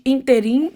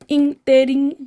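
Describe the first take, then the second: First: The stress is on the last syllable. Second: The stress is on the first syllable. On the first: The speaker calls it wrong. "Não existe interim" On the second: The speaker calls it right. "proparoxítonas todas são acentuadas"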